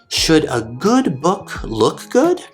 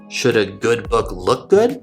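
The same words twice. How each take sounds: First: It is read at a slower, normal pace. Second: It is read at a faster pace.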